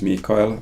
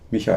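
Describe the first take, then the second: First: The name is pronounced the Finnish way. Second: The name is pronounced the German way. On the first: "and in Finnish" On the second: "how would you pronounce that in German"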